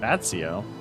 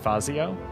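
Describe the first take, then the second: First: The middle consonant sounds like ts. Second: The middle consonant sounds like z. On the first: "There's no T there" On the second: "Instead of Fazio?"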